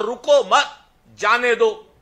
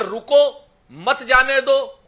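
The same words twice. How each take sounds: First: "रुको मत" together, a clear break, then "जाने दो"; pause after मत. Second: "रुको", then "मत जाने दो" run together; pause after रुको. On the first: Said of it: "इसमें कॉमा लगा दिया". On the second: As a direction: break after "रुको", keep "मत जाने दो" as one phrase. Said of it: "रुको के आगे कॉमा लगा दिया". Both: Shown as a demonstration.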